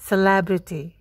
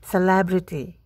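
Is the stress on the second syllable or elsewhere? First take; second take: second syllable; second syllable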